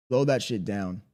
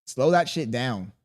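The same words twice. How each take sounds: First: Said in the usual way. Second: Slow, drawn-out command; deliberately unhurried order. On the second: Shown as a demonstration. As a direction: say it slowly to show the pace.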